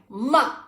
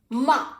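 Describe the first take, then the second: No difference in how they are said.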